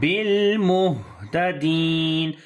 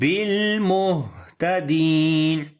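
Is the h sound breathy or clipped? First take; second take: breathy; breathy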